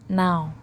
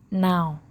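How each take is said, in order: No difference in how they are said.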